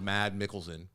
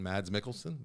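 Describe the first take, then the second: First: The first name ends without an s sound. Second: The first name ends with an s sound. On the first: The speaker calls it right. "that's how you pronounce Mad. Isn't that you don't pronounce the S?" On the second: The speaker calls it wrong. "but I don't like that as much"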